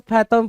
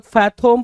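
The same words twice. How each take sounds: First: फैथम with a short neutral last vowel, "FA-thum"; alternative pronunciation. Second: फैथम said with a long O, "fa-THOME"; alternative pronunciation. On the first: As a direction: say फैथम as "FATH-um". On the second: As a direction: say फैथम as "faith-OME", rounded second vowel. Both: Shown as a demonstration. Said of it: "कुछ लोग फैथम पढ़ेंगे".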